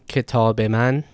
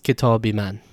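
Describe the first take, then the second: First: The linking vowel has the Farsi/Dari quality. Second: The linking vowel has the Tajik quality. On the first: "In Farsi and Dari, this is pronounced a" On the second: "While in Tajikistan, this is an e"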